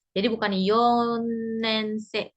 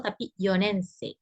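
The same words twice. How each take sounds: First: Yonensei drawn out, wrongly said with a doubled n. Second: Yonensei said right, with one single n; correct single N. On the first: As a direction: say yonensei slowly as yonnensei, the wrong way. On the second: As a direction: tapi yonensei, yo-nen-sei, one clean n. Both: Shown as a demonstration. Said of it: "N-nya double".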